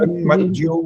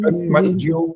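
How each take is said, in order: First: The syllables are joined into one smooth cluster. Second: The same.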